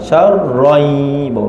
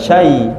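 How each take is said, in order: First: The word has a clear r sound. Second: The word has no r sound. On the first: The speaker calls it right. "masuk syar, masuk roh, syar, baru masuk ya" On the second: The speaker calls it wrong. "bukan syai"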